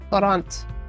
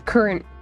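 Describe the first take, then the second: First: The word is said like 'courant', unlike 'current'. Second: The word is said exactly like 'current'. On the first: The speaker calls it wrong. "I always want to pronounce it courant" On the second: The speaker calls it right. "they're both current current"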